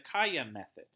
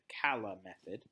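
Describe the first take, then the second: First: The middle consonant sounds like a Y. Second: The middle consonant sounds like an L. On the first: "the Spanish way" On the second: "if you didn't pronounce it the Spanish way"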